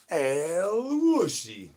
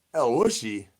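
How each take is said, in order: First: Very slow and high, each syllable stretched long; drawn-out El Wushy call. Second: Said in the usual way. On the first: Pretend. Streamer performing the El Wushy call chat asked for, slow and high. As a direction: croon the name out slowly like a summons. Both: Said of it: "I guess I'll do it".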